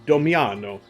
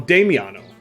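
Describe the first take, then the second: First: The first vowel is said as an O. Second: The first vowel is said as an A. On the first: The speaker calls it wrong. "I thought that was an O for some reason" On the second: The speaker calls it right. "Oh, Damiano"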